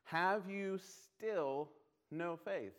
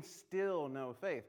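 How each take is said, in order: First: Each word drawn out slowly; heavy, deliberate reading of the key line; slow emphatic question. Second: "still" lifted and stretched; slow, pointed "still no faith"; stress on still. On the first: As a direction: linger on "Have you still no faith?". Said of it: "there's a key word in this verse". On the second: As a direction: lean hard on "still" in "still no faith". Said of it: "what do you mean". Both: Shown as a demonstration.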